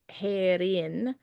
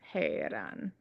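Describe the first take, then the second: First: The last syllable ends with an 'in' sound. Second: The last syllable ends with an 'an' sound. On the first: The speaker calls it wrong. "it's not Herin" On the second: The speaker calls it right. "it's Heran"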